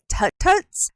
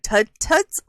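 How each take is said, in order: First: The first word ends in a T sound. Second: The first word ends in a D sound. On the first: The speaker calls it wrong. "I want to say Tut Tuts" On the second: The speaker calls it right. "it's Tud with a D, not a T"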